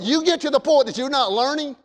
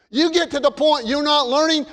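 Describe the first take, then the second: First: Said in the usual way. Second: "you" pressed a little higher on the repeat; emphatic repeat. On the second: Shown as a demonstration. Preacher repeats the warning to the church with pressed emphasis. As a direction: drive the point home the second time. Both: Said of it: "repeated for emphasis".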